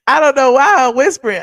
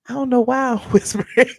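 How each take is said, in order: First: Louder, dropping the hush; suddenly loud. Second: Laughing. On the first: Loud again, teasing herself for whispering to viewers. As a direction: say it out loud, laughing at yourself. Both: Real, not acted.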